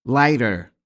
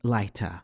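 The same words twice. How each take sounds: First: It is said with an American accent. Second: It is said with a British accent. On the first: "تلفظ بالولايات المتحدة بهذا الشكل" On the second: "في بريطانيا تلفظ هذه الكلمتين على أنها"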